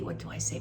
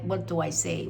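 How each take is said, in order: First: Breathy unvoiced "What do I say?" to herself; muttering under her breath; whispered aside. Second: Said in the usual way. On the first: Real, not acted.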